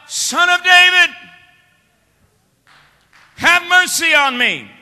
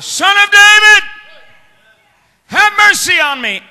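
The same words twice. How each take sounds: First: It is said more quietly. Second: It is said more loudly.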